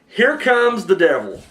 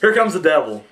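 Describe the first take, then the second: First: It is said in a redneck accent. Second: It is said in a plain accent.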